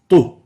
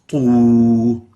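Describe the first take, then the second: First: The vowel is cut short. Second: The vowel is held long. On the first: It is a ta with a dhamma. "if we shorten the u part, the wow, it will sound like a dhamma" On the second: It is a ta followed by a wow. "we take a ta plus a u, wow, and it will sound like tu"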